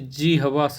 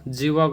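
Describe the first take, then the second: First: It is said jihva, with an h before v. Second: It is said jeeva, with no h sound. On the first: The speaker calls it right. "सही है" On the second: The speaker calls it wrong. "गलत है"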